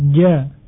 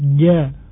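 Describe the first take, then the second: The two takes are said the same way.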